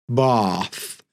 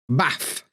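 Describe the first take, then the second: First: The vowel in bath is a long ah. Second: The vowel in bath is a short ah. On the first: This is how southerners say it. "down south, when they say bath and ask" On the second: This is how Sheffield speakers say it. "In Sheffield, we say ah, bath"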